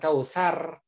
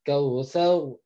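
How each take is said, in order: First: The r is said light and thin. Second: The r is said heavy and thick. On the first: The speaker calls it wrong. "bukan kausar bukan" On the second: The speaker calls it right. "tapi kautsar ya karena ro-nya ro sukun sebelumnya berharokat fathah maka ro-nya menjadi tebal"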